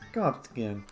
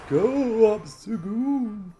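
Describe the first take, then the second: First: It is said in a normal voice. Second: It is said in an old person voice.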